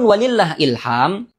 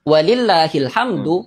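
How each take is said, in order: First: The final 'd' is dropped, giving 'ilham'. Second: The phrase ends with a clear 'hamdu' sound. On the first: The giving of guidance belongs to God. The speaker calls it wrong. "Dan ini bukan makna yang diinginkan" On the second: All praise belongs to God alone. The speaker calls it right. "yang benar adalah walillahil hamdu"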